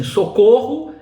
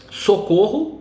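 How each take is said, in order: First: "socorro" called out high and loud like a cry for help; "socorro" as an alarmed cry, higher and louder. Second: Said in the usual way. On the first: Shown as a demonstration. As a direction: shout "socorro" as if calling for help. Exclamation read as cry.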